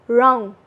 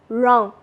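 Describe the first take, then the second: The two takes are said the same way.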